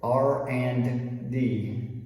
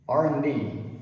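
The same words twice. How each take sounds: First: The word and is said in full with D. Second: The word and is reduced to just an N. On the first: "people don't say R and D" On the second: "reduce it all the way down to the N sound"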